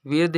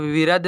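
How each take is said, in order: First: "विर्द" as one syllable, vird; correct pronunciation. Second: "विरद" in two syllables, vi-rad; wrong pronunciation. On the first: Teacher shows learners how to read it, "विर्द" with joined rd. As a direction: run र straight into द in "विर्द". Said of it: "विर्द ही पढ़ेंगे". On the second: Teacher shows learners the reading to avoid, mispronounced "विरद" as vi-rad. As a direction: put a vowel between र and द in "विरद". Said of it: "विरद नहीं पढ़ेंगे". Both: Shown as a demonstration.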